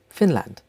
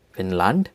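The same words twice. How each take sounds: First: Said in the usual way. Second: "Finland" in German, as FIN-lahnt, rising; German-style "Finland", lifted at the end; German pronunciation. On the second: Shown as a demonstration. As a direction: say "Finland" with a full second vowel. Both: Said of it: "names of countries with German accent".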